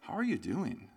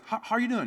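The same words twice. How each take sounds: First: It is asked in a probing, concerned way. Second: It is asked in a light, casual way. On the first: The asker senses something is wrong. "they know something is off" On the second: It is a routine greeting. "It's not like this simple"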